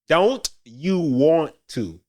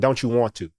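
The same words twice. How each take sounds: First: Each word is said fully and separately. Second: The words blur together with a ch sound. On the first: "That's how you would say it correctly" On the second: "a native speaker doesn't say it like that... the ch sound is in there"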